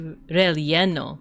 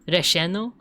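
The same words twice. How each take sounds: First: The double L sounds like ly (Castilian). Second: The double L sounds like sh (Argentine).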